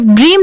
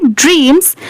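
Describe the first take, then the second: First: ड्रीम said bare, with no final s; ड्रीम without the s sound, as beginners misread it; wrong form dream. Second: ड्रीम्स with a clear s at the end; ड्रीम्स, finish on a crisp s sound; correct form dreams. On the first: (ड्रीम बिना s के, गलत उच्चारण) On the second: (ड्रीम्स, आखिर में साफ s के साथ) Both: Shown as a demonstration. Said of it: "तो आप सिर्फ ड्रीम नहीं पढ़ेंगे".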